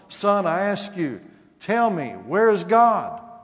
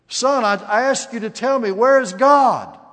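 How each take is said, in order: First: It is said in a stern, controlled tone. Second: It is said in a loud, raised voice.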